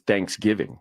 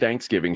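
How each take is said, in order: First: The stress is on the first part, thanks. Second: The stress is on the second part, giving. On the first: This is how a Northerner says it. "My wife says Thanksgiving" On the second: This is how it is said in Texas. "you're accenting the giving"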